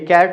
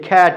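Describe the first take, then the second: First: Cat is said the way many learners say it. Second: Cat is said with standard English pronunciation. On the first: The speaker calls it wrong. "ये कैट नहीं है" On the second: The speaker calls it right. "बल्कि कैट है"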